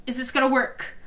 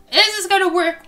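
First: Said in the usual way. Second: Higher, louder urgent question; excited. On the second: Real, not acted. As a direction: ask it eagerly, pushing. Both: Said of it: "We need to know".

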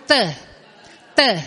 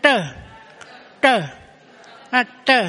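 First: Tơ with the tongue on the front teeth; dental t. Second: Tơ with the tongue curled back; retroflex t. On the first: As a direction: tap the teeth for tơ. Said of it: "Cái lưỡi mình đụng cái răng". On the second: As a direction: curl the tongue for tơ. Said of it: "Còn cái ấm uống lười nè". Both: Shown as a demonstration.

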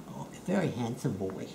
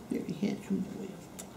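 First: Said in the usual way. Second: Whisper. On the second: Real, not acted. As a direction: whisper the praise close to the pet. Praising pet, whispered.

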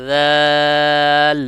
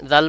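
First: দাল with a very long, loud, level aa before the l; stretched out. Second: দাল said short, vowel not held; unstretched. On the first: Teacher showing every letter sounds when stretched, elongated. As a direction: hold the vowel of দাল steadily, then close on l. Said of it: "যখন আপনি টেনে টেনে পড়বেন". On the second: Teacher showing letters get lost, short. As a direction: say দাল quickly with no lengthening. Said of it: "প্রত্যেকটা হরফ আসতেছে না". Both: Shown as a demonstration.

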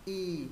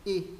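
First: "Y" held long, gliding down; long Y vowel. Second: "Y" short, as in Vietnamese; Vietnamese-style Y. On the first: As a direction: draw out the vowel "Y". (ngân dài âm "Y") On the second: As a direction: cut the vowel "Y" short. (âm "Y" ngắn như tiếng Việt) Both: Shown as a demonstration. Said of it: "Chữ Y thứ ba giống tiếng Việt".

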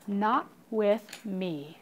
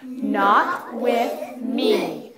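First: Slow, measured, quietly mean; soft, slow storybook villain threat. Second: Very slow, drawn-out mean delivery; slow, menacing storybook bully. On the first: Acted. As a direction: space out each word with menace. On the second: Shown as a demonstration. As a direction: lean hard on each word, meanly. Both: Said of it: "Do it in a mean voice".

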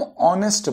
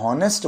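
First: ऑनेस्ट beginning directly on the o vowel; silent H. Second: हॉनेस्ट opening on an audible h; sounded H. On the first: Teacher gives the real pronunciation, ऑनेस्ट with silent H. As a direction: drop the h entirely in ऑनेस्ट. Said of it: "हम ऑनेस्ट बोलते हैं". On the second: Teacher supposes the wrong pronunciation, हॉनेस्ट with sounded H. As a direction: pronounce the h in हॉनेस्ट before the o vowel. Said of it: "का उच्चारण होता". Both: Shown as a demonstration.

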